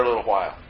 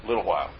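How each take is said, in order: First: Said in the usual way. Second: Low, softer dry echo; dry understatement. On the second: Real, not acted. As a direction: drop LITTLE WHILE low and soft, wryly. Ironic echo before forty years.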